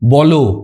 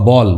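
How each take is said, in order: First: The word ends with a final o vowel. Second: The word ends on a bare l consonant. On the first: "ও মানে এই লয়ের সঙ্গে কিন্তু ও থাকতে পারে" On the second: "বল হয় হসন্তর মানে ল"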